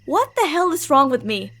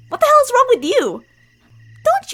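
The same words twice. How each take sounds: First: Said in the usual way. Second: Higher, louder, snapping back; angry outburst. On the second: Acted. Childhood friend snapping at the listener, angry outburst. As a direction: throw the question back in anger.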